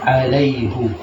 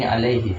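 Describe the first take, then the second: First: The word ends with a 'u' vowel. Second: The word ends with an 'i' vowel. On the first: This is the reading of another dialect tradition. "Terkadang dibaca juga alaihu" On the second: This is the reading used in the common script today. "kita ini lahjanya pakai ini alaihi"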